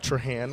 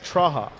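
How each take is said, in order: First: The final n sound is clearly pronounced. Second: The final n sound is left silent. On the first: "We'll go with Trahan right now" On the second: "You wouldn't pronounce the N. It was Traha"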